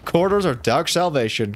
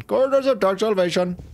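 First: Said in the usual way. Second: Higher, grand title reading; dramatic announcer. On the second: Shown as a demonstration. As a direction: announce it like a movie trailer.

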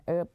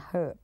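First: Herb with a silent h, "erb"; "herb" starting straight on the vowel; American pronunciation. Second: Herb with the h sounded; "herb" starting on an audible h; British pronunciation. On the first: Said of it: "อเมริกันอ่าน herb". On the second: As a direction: breathe out a clear h in "herb", British style. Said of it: "อังกฤษอ่าน herb". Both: Shown as a demonstration.

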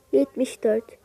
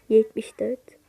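First: Said in the usual way. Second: Whispered, unvoiced, half to herself. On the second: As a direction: hush it under the breath. Sayıları tekrar fısıldıyor. (fısıltıyla)

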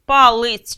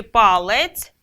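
First: "Палець" slowly as "палиць", with и before ц; и variant. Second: "палець" slowly, with a clear е before ц; е variant. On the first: Teacher posing a spelling doubt, "Палець" voiced slowly with и. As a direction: draw out "Палець" with an и in the second syllable. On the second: Teacher posing a spelling doubt, "палець" voiced slowly with е. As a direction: draw out "палець" with an е in the second syllable. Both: Shown as a demonstration. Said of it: "сумніваємось".

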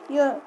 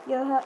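Both takes have the same delivery.

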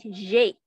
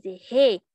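First: G said the Portuguese way, "zheh", with a buzzed start; Portuguese letter name. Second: G said the Spanish way, "heh", with an aspirated start; Spanish letter name. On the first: Teacher showing students the Portuguese letter, G as buzzed "zhê". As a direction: say G as "zhê", like French j. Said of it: "Em português se diz". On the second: Teacher contrasting alphabets for students, G in Spanish pronunciation. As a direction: say G as Spanish "ge", breathy h sound first. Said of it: "Em espanhol se diz". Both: Shown as a demonstration.

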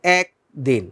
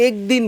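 First: একদিন with an open æ, like "aekdin"; একদিন with the open vowel, lower and relaxed; spoken pronunciation. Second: একদিন with a pure e as in the letter এ; একদিন read letter by letter with e; spelling pronunciation. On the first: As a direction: say একদিন the natural Bangla way, æ sound. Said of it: "আমরা বলি একদিন". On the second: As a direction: say একদিন as written, e not æ. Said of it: "আমরা কিন্তু একদিন বলি না". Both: Shown as a demonstration.

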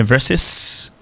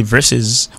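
First: "versus" said "VER-sis", with a long hissed s; English, S ending. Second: "versus" said the English way, "VER-sez"; English, Z ending. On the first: Teacher offering the alternative English form, "versus" ending in drawn-out s. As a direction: draw out the final s of "versus". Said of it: "sont Z ou bien sont S". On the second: Teacher contrasting English with Latin, "versus" ending in voiced z. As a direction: finish "versus" with a buzzing z. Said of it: "mais en anglais, on dit versus". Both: Shown as a demonstration.

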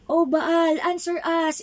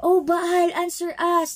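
First: Calling out to Baal. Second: High, loud cry to a silent god; calling out to Baal. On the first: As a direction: cry out to Baal, pleading. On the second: Prophets of Baal calling to their god, loud and pleading. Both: Acted. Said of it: "they shouted".

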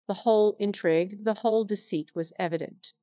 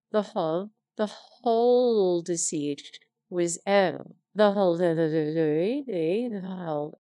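First: Said in the usual way. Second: Stumbling reread. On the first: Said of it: "retake of the same words". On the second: Real, not acted. Reader flubbing the line, stammering and halting. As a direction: trip over the words and repeat.

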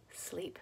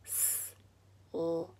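First: Said in the usual way. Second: "sleep" softly as s, l, ee, p, with gaps; each sound of "sleep" on its own, quiet; broken into phonemes. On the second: Shown as a demonstration. Breaking a word apart for phonics, "sleep" segmented. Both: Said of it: "Now break it".

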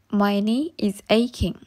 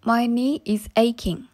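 Both takes have the same delivery.

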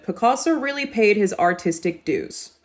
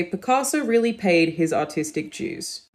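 First: General American read with a hard R in artistic and a plain doo in dues; American accent demo. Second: Slow Australian read with dues said as jooz; Australian accent, artistic dues with a J sound, unhurried; Australian accent demo. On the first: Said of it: "the way the Americans would say this". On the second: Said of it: "In the Australian accent, we would say". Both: Shown as a demonstration.

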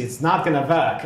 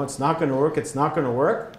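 First: Put-on German accent on a verdict. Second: Said in the usual way. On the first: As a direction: imitate a German engineer's accent. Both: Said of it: "with that kind of accent".

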